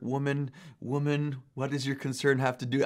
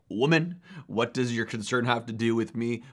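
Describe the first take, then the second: First: It is said in a gentle, nicer tone. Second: It is said in a harsh, aggressive tone.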